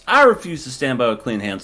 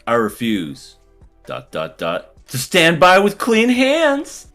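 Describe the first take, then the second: First: The sentence runs straight through without a break. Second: There is a long break after 'refuse'. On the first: The decision is stated plainly at once. The speaker calls it right. "just say the whole sentence?" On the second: The delay builds suspense about the decision. The speaker calls it wrong. "Dot dot dot"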